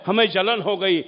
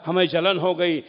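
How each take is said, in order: Both takes have the same delivery.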